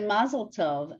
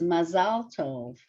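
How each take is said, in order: First: It uses the familiar everyday community pronunciation. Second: It uses the standard Hebrew pronunciation. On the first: This is what the community is used to saying. "we all say Mazel Tov" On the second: This is the proper Hebrew form. "the Hebrew is Mazal Tov"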